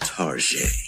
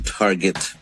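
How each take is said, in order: First: The word is said with a fancy, stylish flair. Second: The word is said in a plain, ordinary way. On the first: "say it with some style" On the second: "without the style"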